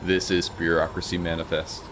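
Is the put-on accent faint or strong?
faint. It is said with a faint put-on accent. The speaker calls it wrong.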